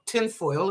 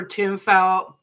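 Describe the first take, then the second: First: Said in the usual way. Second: Tinfoil slurred and clipped as tinfa; garbled word. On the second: Real, not acted. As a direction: swallow the end of tinfoil, like a slip. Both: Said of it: "excuse me".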